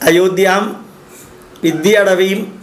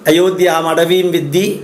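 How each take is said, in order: First: 'Viddhi' is garbled and slurred before 'atavim'. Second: 'Viddhi' is said cleanly after 'atavim'. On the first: The speaker calls it wrong. "അങ്ങനെയല്ലല്ലോ പറയേണ്ടിയിരുന്നത്" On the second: The speaker calls it right. "എന്ന് പറയേണ്ട സ്ഥാനത്ത്"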